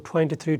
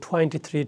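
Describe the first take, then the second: The two takes are said the same way.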